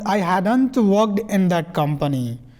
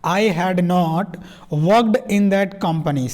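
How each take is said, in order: First: 'Had not' is joined into one contracted word. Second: 'Had not' is said as two full words. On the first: "I हैड नॉट को जोड़ देंगे तो हैडंट" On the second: "एक बार सीधा बोल दीजिए"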